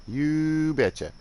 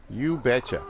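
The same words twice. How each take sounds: First: Slow, higher, drawn-out Northern Midwest "You betcha."; exaggerated Northern Midwest "You betcha." held long and high; broad Northern Midwest accent. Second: Bright Northern Midwest "You betcha." with a quick falling finish; friendly Minnesota-style Northern Midwest "You betcha."; a light Northern Midwest relative saying "You betcha."; Northern Midwest accent. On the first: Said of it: "they sound Canadian". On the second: Retold or imitated. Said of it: "I'll do my best impression".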